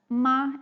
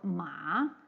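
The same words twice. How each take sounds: First: The syllable is said with the first tone. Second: The syllable is said with the second tone. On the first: It means mom. "Like the first tone, it means ma, it means mom" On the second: It means hemp. "the second tone ma means hemp"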